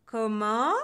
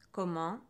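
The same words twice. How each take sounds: First: Loud, rising question; loud indignant "what?"; outraged. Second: Slightly low, rising question; restrained, rising "what?"; incredulous. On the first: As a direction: blast it out in offended disbelief. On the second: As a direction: ask it in affronted disbelief. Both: A narrator's reading. Witch reacts to growing insults.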